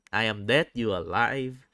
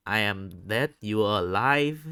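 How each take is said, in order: Both takes have the same delivery.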